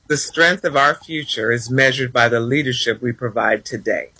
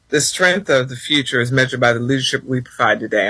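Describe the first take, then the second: First: It is said slowly and deliberately. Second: It is said at a normal pace.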